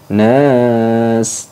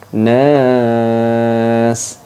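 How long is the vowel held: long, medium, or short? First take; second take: short; medium. First: The vowel is held for one beat. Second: The vowel is held for two beats. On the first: "boleh dibaca panjang satu alif" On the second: "boleh dua alif"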